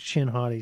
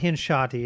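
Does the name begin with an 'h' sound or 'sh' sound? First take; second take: sh; h. First: The first part begins with an 'sh' sound. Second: The first part begins with an 'h' sound. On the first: The speaker calls it right. "It's Shin Hati" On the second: The speaker calls it wrong. "I said it wrong. It's not Hin Shati"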